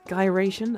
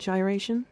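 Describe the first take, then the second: First: The word begins with a hard G sound. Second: The word begins with a soft J sound. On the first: The speaker calls it right. "It's G as like in guy" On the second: The speaker calls it wrong. "not like G like in vagina"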